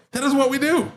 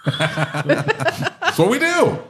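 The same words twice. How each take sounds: First: High-pitched, emphatic defence; emphatic insistence. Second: High, drawn-out words through laughter; laughing admission. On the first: Shop owner defends his sales routine, high-pitched insistence. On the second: Shop owner owns his sales routine, laughing. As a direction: crack up while owning up to it. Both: Real, not acted.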